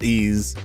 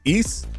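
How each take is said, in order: First: It sounds like 'ease', ending in a z sound. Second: It sounds like 'eese', ending in an s sound. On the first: The speaker calls it wrong. "It's not ease" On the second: The speaker calls it right. "The pronunciation is Ys like geese"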